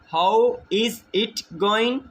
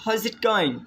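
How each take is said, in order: First: Each word is pronounced separately and fully. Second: The words are blended into a reduced form. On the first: "इज़ इट को अलग अलग pronounce करने के बजाय" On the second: "हम बोल सकते हैं जिट"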